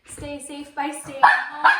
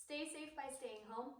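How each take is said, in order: First: Loud slow sign-off. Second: Soft, hushed closing line; quiet sign-off. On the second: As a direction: say it gently and softly. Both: Shown as a demonstration.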